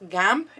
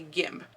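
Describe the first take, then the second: First: The vowel sounds like the a in cat. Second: The vowel sounds like the i in sit. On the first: This is the French pronunciation. "it may actually be pronounced gamp in the French" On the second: This is the common English pronunciation. "most customers tend to call it a gimp"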